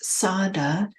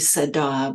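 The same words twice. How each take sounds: First: The word is said in an anglicized way. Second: The word is said with Pali pronunciation. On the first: This is the common teacher's pronunciation. "Dharma teachers often pronounce it as" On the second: This is the original-language pronunciation. "In Pali, it would be"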